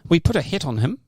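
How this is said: It is said in a New Zealand accent.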